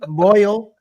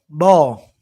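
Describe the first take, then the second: First: Boil is said with a clear oi sound. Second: Boil is said like ball, Southern style.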